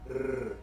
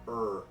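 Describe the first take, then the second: First: The R sound is trilled. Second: The R sound is not trilled. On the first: "This is the trilled R" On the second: "This is the untrilled R"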